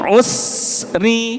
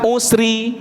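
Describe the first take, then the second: First: The s is fully held before the r. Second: The s runs straight into the r. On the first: The speaker calls it right. "Tapi usri. Habiskan dulu sinnya, baru roknya keluar" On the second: The speaker calls it wrong. "bukan usri"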